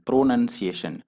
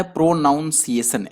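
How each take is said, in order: First: प्रोनंसिएशन said pro-NUN-si-ation; correct pronunciation. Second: प्रोनाउंसिएशन said pro-NOWN-si-ation; common mispronunciation. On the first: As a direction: say प्रोनंसिएशन with a short NUN in the middle. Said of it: "यहाँ पर नन होता है". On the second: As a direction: say प्रोनाउंसिएशन with a NOUN sound in the middle. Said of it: "बहुत लोग जो इसको पढ़ता है". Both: Shown as a demonstration.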